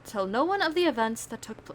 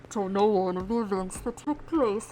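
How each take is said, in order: First: It is read in the speaker's normal voice. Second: It is read in a put-on menacing voice.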